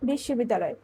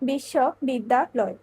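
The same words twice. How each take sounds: First: The word is said at once without breaks. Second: The word is split into three separate chunks. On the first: "একেবারে করতে পারে ... এক্ষেত্রে অক্ষর দ্বারায় একটি" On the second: "এক্ষেত্রে অক্ষর হচ্ছে তিনটি"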